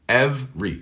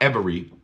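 First: The word is said with two syllables. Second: The word is said with three syllables. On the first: The speaker calls it right. "No estoy pronunciando la segunda E" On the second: The speaker calls it wrong. "Not every"

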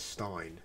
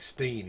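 First: The vowel sounds like 'eye'. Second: The vowel sounds like 'ee'. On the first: The speaker calls it right. "instead of Stein" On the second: The speaker calls it wrong. "I got pulled up on those for saying Steen"

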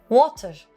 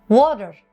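First: The middle t is a crisp t. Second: The middle t sounds like a d. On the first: "British'ler water şeklinde diyebiliyor" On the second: "Amerikalılar water derken yani d'ya benzetirken"

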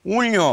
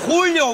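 First: The name starts without the h sound. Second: The name starts with the h sound. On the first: The speaker calls it wrong. "Ты можешь нормально говорить Хулио?" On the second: The speaker calls it right. "вот это ты хотел услышать?"

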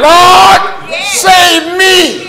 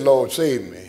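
First: It is screamed out very loudly. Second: It is said quietly and casually.

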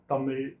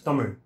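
First: The final consonant is a plain L sound. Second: The final consonant is a special R-like sound. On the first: The speaker calls it wrong. "it's not Tamil" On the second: The speaker calls it right. "it's Tamil. So the R sound is not present in any of the other languages"

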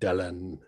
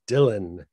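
First: The name is given its Welsh pronunciation. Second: The name is given its English pronunciation. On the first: This is the form the name's owner rejects. The speaker calls it wrong. "it is not Dylan" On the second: This is the form the name's owner claims. The speaker calls it right. "he made a clear distinction that his name was going to be English"

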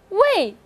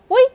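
First: The pitch falls sharply from high to low. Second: The pitch stays high and level. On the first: "第四个是围" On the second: "第一个告诉老师它是什么，快速的说围"

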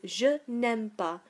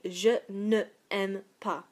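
First: The e of ne is dropped before aime. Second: The e of ne is pronounced before aime. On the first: The speaker calls it right. "which is much easier to say" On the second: The speaker calls it wrong. "it's not particularly easy to say"

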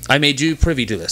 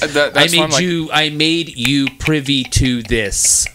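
First: It is said casually at normal conversational speed. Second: Each word is carefully and distinctly enunciated.

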